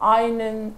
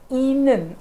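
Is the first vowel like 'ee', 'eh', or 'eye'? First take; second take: eye; ee. First: The first vowel sounds like 'eye'. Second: The first vowel sounds like 'ee'. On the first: The speaker calls it wrong. "असं केलं तर ते होणार नाही" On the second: The speaker calls it right. "तर ते इनन असं"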